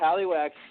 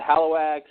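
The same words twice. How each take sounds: First: The middle syllable sounds like 'lee'. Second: The middle syllable sounds like 'low'. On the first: "Halliwax just sounds crazy" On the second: "it sounds like Holloway almost"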